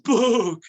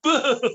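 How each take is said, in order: First: The word is said in a scary tone. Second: The word is said in a happy tone.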